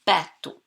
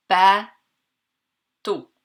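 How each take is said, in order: First: Said in the usual way. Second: "Bateau" as ba, long pause, teau; split into syllables. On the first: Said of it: "on doit premièrement le répéter". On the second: Shown as a demonstration. Teacher counting syllables for pupils, "Bateau" split by a pause. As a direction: break "Bateau" into two firm, separate beats. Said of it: "compter combien y a-t-il de syllabes".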